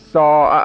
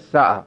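First: The first vowel is held long. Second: The first vowel is cut short. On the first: The speaker calls it right. "ساعه اگر نگید" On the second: The speaker calls it wrong. "میشه ساعه"

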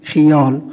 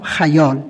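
First: The first vowel is 'i' (khiyal). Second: The first vowel is 'a' (khayal). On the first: This is the everyday spoken habit. "خیر رو به کسر میخونیم" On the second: This is the form recorded in dictionaries. "لغت همه ضبط کردن که به فتحشه"

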